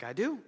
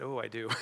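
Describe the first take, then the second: First: Higher, questioning lift; surprised question. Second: Low-key, falling admission; sheepish realization. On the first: Preacher answers the Lord's word about an apology, surprised question. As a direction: query it, taken aback. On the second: Preacher admits to the Lord the apology is owed, sheepish realization. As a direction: concede it, the memory sinking in. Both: Retold or imitated.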